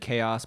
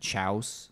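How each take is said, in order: First: It begins with a k sound, two syllables. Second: It begins with a ch sound, one syllable. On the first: "I had a friend who said chaos" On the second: "but he said chouse"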